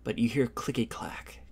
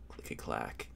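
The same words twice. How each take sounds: First: Said in the usual way. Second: Eerie low whisper of "clicky clack". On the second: A narrator's reading. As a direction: breathe "clicky clack" as a creepy unvoiced whisper. GM whispers the sound effect.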